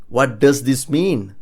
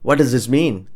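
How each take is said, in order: First: "What does this mean" slow, each word separate; slow down and fully sound "What does this mean"; slow model. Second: Said in the usual way. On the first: Shown as a demonstration. Teacher modelling a question about Japanese writing, slow and clear. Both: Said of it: "you ask someone who knows Japanese this".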